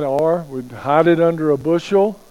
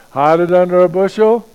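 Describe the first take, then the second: First: Said in the usual way. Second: Loud, rising disbelieving question; incredulous. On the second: Shown as a demonstration. Preacher mocking hiding the light, loud incredulous question. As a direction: scoff at the very idea.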